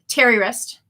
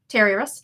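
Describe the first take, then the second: First: The name is said slowly, as two words. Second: The name is said fast, blending into one word.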